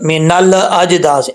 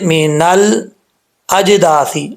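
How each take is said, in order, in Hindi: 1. 'ल' की ध्वनि गूंज के साथ वापस लौटती है। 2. 'ल' की ध्वनि बिना किसी वापसी के रुकी रहती है। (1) "ऐसा नहीं करना" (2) "जम जाए, वापस फौरन नहीं लौटनी चाहिए"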